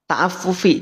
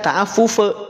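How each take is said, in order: First: The final vowel is a clear "i" sound. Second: The final vowel is an "e" sound. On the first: The speaker calls it right. "asalnya kan ta'affufi ya" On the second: The speaker calls it wrong. "Maka tidak dibaca ta'affufe"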